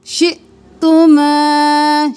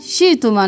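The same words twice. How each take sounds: First: शि'तुमा recited slowly, with a catch at the hamza; correct tajweed. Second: शि'तुमा rushed fast with no hamza break; wrong pronunciation. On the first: Teacher showing the correct शि'तुमा, slow recital. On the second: Teacher showing students the wrong शि'तुमा, fast and casual. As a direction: blur शि'तुमा quickly, the wrong way. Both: Shown as a demonstration. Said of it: "शि'तुमा नहीं करना".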